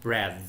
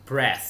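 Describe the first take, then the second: First: Breath said as "breathe", ending in a buzzing th; isolated Breath with a voiced final th. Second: Breath ending in a voiceless th; loud isolated breath with an airy final th. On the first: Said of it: "chắc chắn sẽ là đọc khác". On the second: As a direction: model breath with an unvoiced th ending. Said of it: "hai âm này đọc là âm th". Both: Shown as a demonstration.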